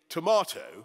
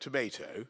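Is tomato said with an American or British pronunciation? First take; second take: British; American. First: It is said with a British pronunciation. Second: It is said with an American pronunciation. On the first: American children now copy the British form. "kids in America now say tomato" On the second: This is the form American children used before. "instead of tomato"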